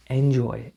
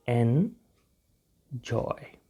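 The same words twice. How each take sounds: First: Said in the usual way. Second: enjoy very slowly, split "en... joy"; syllable by syllable. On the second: Shown as a demonstration. Teacher shows learners how to pronounce it, slow syllable by syllable. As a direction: stretch enjoy out with a gap between syllables.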